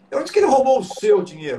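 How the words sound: The stress is on "seu".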